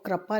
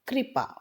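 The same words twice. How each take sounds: First: The r is followed by an a vowel. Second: The r is followed by an i vowel. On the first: The speaker calls it wrong. "क्र र पूरा नहीं होता है इसमें" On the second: The speaker calls it right. "शुद्ध शब्द है कृपा"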